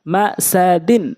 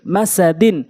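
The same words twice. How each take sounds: First: Drawn-out syllable by syllable reading; slow demo. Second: Short vowels, syllables run together; quick reading. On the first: Teacher showing learners the word first, slowly. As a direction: stretch each syllable for learners. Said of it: "প্রথমে আমি slow বলছি". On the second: Teacher showing how it must be read, quickly. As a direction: read it briskly as one word. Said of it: "দ্রুতটা উচ্চারণ করতে হবে". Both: Shown as a demonstration.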